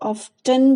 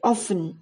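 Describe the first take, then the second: First: The t sound in the middle is pronounced. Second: The t sound in the middle is silent. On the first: "कुछ लोग इसको ऑफ्टन भी बोलते हैं" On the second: "टी silent रखते हैं"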